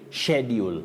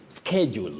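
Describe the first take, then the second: First: The word begins with an sh sound. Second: The word begins with an sk sound. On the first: "S, C, and H takes the sounding sh" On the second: "that is the American pronunciation of that word"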